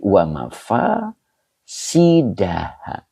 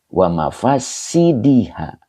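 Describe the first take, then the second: First: The vowel before ha is an a sound. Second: The vowel before ha is an i sound. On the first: The speaker calls it wrong. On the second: The speaker calls it right.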